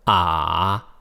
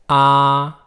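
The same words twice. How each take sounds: First: The syllable carries the third tone. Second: The syllable carries the first tone.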